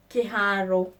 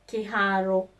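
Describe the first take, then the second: No difference in how they are said.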